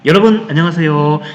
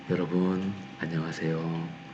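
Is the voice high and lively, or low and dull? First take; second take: high and lively; low and dull. First: The voice is high-pitched and lively. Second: The voice is low, husky and dull. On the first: The speaker calls it right. "이렇게요" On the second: The speaker calls it wrong. "목소리가 잠겨서"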